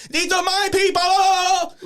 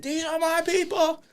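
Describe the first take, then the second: First: High, loud, drawn-out lisped shout of "These are my people"; lisped battle cry. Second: High lisped "These are my people" at normal volume; lisped repeat. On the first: Opponent Hulks up mid-match, long lisped shout of "These are my people". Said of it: "shoot Hulk Hogan'd up". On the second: Opponent just kept saying it, high lisped "These are my people". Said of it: "he just kept saying it". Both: Retold or imitated.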